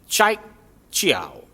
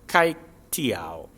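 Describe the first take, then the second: First: The name begins with a CH sound. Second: The name begins with a hard K sound. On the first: The speaker calls it right. "It's not a K sound, but it's a C H sound" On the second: The speaker calls it wrong. "in English, you would probably say it as Kai Tiao"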